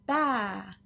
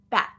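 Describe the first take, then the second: First: The vowel trails off with no final stop. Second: The vowel is cut off by a stop. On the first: The speaker calls it wrong. "we can't just let that vowel hang out in the air" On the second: The speaker calls it right. "we need to stop at the T"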